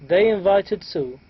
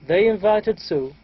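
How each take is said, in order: The two takes are said the same way.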